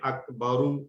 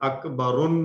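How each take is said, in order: First: The word ends on a short vowel. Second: The word ends with an added n sound. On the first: The speaker calls it right. "बल्कि अकबरु ... सिंगल हरकत के साथ" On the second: The speaker calls it wrong. "अकबरुन नहीं होगा"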